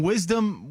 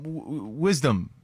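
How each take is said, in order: First: Said in the usual way. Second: "wisdom" spelled out slowly, starting the w twice before the full word; slow clear repeat. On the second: Shown as a demonstration. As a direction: sound out "wisdom" slowly so they finally catch it. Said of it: "he's saying wisdom".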